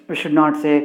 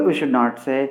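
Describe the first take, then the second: The two takes are said the same way.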